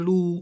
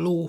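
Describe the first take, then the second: First: The vowel is a long high u. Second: The vowel is a long mid o. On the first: This is the regional dialect form. "az ó helyén ú található" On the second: This is the standard form. "az ó helyén ú található"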